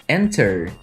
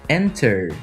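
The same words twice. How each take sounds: Both takes have the same delivery.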